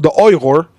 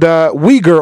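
First: The name is said with a Chinese pronunciation. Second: The name is said with an English pronunciation.

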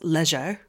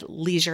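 First: It is said in a put-on British accent. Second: It is said in an American accent.

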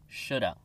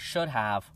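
First: The words run together as one reduced word. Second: Both words are said fully and slowly. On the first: This is how it sounds in fast conversation. "We say shoulda" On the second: This is how it sounds in slow speech. "we don't say should have unless we speak slowly"

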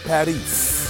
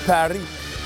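First: The final s sound is pronounced. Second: The final s sound is left silent.

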